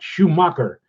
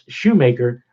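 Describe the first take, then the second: First: The second syllable sounds like 'mah'. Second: The second syllable sounds like 'may'. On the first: The speaker calls it wrong. "it's not Schumacher. That's how you pronounced it" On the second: The speaker calls it right. "It's Shoemaker"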